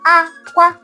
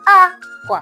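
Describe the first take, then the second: First: Both syllables are said on a high tone. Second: The first syllable is high, the second low. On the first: "the high, high is called aqua" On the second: "What about the high, low?"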